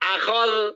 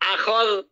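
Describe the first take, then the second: Both takes have the same delivery.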